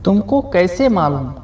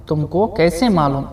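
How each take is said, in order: Both takes have the same delivery.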